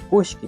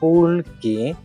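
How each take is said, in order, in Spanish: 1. La consonante del medio es un sonido SH. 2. La consonante del medio es un sonido L normal. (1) "en la Sierra Centro van a escuchar Kushki" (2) "la pronunciación es como una L normal"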